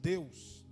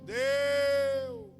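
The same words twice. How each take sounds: First: It is said at normal volume. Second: It is shouted loudly.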